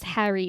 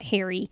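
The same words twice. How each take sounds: First: It is said with a New Jersey accent. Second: It is said with a Californian accent. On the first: "my mom's from New Jersey" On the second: "I grew up in California"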